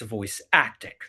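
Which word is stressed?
acting. The stress falls on the word acting. The craft of acting matters most. The speaker calls it right. "lowercase v, capital A"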